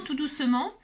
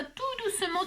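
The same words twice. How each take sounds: First: Said in the usual way. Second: Softer, higher "tout doucement" said gently; a soft demonstration of gentleness. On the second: Shown as a demonstration. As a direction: breathe out "tout doucement" as if soothing.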